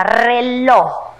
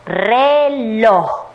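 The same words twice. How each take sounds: First: Said in the usual way. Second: "reloj" drawn out as re, loj; separado en sílabas. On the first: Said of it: "Primero vamos a leer". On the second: Shown as a demonstration. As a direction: sound out "reloj" in two long syllables. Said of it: "luego vamos a separar en sílabas". ("reloj" alargado, sílaba por sílaba)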